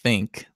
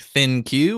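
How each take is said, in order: First: It is said as the single word think. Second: It is said as two parts, thin plus Q. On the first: The speaker calls it right. "or should it just be think?" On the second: The speaker calls it wrong. "is that not the worst thing you've ever heard? Like thin Q"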